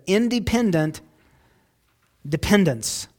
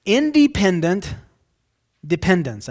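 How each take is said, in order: First: Said in the usual way. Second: Independent rising loud, dependence falling; stressed phrase. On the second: Shown as a demonstration. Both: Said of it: "a strange way to say that".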